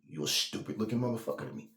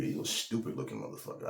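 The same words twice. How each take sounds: First: Said in the usual way. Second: A much lower, softer take of the insult. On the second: Shown as a demonstration. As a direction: drop the insult low and quiet. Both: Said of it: "I didn't say it 'cause it sound funny".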